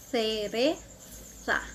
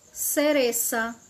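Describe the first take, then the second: First: The z is said as a th sound. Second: The z is said as an s sound. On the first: "Na Espanha" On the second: "No Uruguai"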